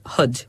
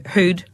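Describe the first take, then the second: First: "hood" with a short, lax vowel; listener's pronunciation. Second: "hood" with a long fronted oo; Fermanagh pronunciation. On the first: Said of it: "'cause you say hood". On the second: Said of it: "So, uh, we'd say". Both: Shown as a demonstration.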